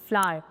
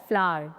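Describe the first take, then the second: Both takes have the same delivery.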